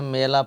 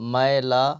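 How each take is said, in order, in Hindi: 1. पहला स्वर एक सादा 'e' ध्वनि है। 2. पहला स्वर एक खुली 'ai' ध्वनि है। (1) "अक्सर बच्चे गलती करते हैं, मेला पढ़ते हैं।" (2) "मुअल्लिम साहब तवज्जो फरमाएंगे।"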